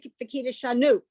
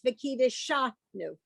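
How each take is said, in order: First: The stress is not on the syllable sha. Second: The stress is on the syllable sha. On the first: The speaker calls it wrong. "as opposed to" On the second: The speaker calls it right. "The accent marks on the sha"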